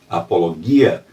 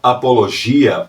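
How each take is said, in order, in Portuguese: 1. Ela é pronunciada do jeito que os gregos falam. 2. Ela é pronunciada do jeito português comum.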